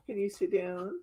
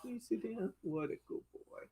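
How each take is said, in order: First: Said in the usual way. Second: Much softer, coaxing the dog; soft coaxing pet talk. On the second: Real, not acted. Owner softly coaxing her dog to sit.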